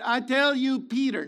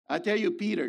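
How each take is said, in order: First: "tell" in "I tell you, Peter" struck hard and high; stress on tell. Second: Said in the usual way. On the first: Shown as a demonstration. Preacher pointing out the name Jesus uses, stressing "tell". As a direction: lean on "tell", then land on "Peter".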